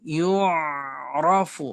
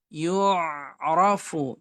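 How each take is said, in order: The two takes are said the same way.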